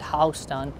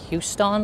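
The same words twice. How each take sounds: First: It is pronounced the local New York way. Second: It is pronounced like the Texas city's name. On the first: This is how the New York street is named. The speaker calls it right. "here it pronounced at Houston" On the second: This is how the Texas city is named. The speaker calls it wrong. "pronounced like Houston, like Texas"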